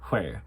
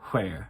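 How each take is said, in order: First: The word starts with a breathy HW sound. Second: The same.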